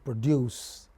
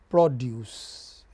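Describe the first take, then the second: First: The stress is on the second syllable. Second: The stress is on the first syllable. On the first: It is used as a verb. "but when you use it as verb, then it becomes produce" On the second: It is used as a noun. "like subject, you know, when when produce is a noun"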